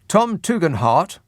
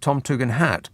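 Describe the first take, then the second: First: The last syllable sounds like 'hart'. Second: The last syllable sounds like 'hat'. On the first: This is how the name's owner says it. "that's how he pronounces it" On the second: This is how the spelling suggests it. "it looks to me like"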